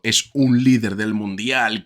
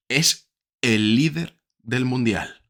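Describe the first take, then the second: First: Light weight on "un", as if only one of several; stress on UN. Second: Slow, deliberate, "el" stretched and set apart; "el" drawn out as the one and only; stress on EL. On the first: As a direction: run on through "un líder", not final. Contrasts "a leader" with "the leader. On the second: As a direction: hammer "el líder" with pauses round it. Corrects "a leader" to "the leader. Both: Real, not acted.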